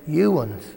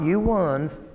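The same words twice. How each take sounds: First: The words run together as one reduced word. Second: The words are said as two separate words. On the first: This is the regional way to address several people. "we say" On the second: This only spells out what the regional form means. "not you ones, but that's what it means"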